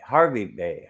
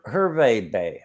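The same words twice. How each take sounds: First: "Harvey" with an ar, ending in vee; Harvey pronunciation. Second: "Hervey" with an er, ending in vay; Hervey pronunciation. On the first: Trying the bay's other name, "Harvey" as HAR-vee. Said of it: "people pronounce it Harvey a lot of times". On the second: Unsure of the bay's name, pronouncing "Hervey" as HER-vay. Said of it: "people pronounce it Harvey a lot of times, but I guess it's Hervey". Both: Shown as a demonstration.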